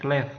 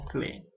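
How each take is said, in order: First: The final consonant is pronounced at the end. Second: The word ends on the vowel, no final consonant. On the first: It is read the way an Indonesian reader would. The speaker calls it wrong. "kalau dalam bahasa Indonesia kita bacanya clef" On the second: It follows the French rule for final letters. The speaker calls it right. "huruf terakhir tidak dibunyikan sehingga kita yang bacanya clé"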